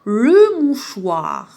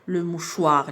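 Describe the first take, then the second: First: "Le mouchoir" drawn out very slowly, syllables joined; slow syllable blending. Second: Said in the usual way. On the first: Shown as a demonstration. Teacher modelling the blended word for pupils, very slow. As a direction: linger on each syllable of "mouchoir". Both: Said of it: "ربطت بيناتهم".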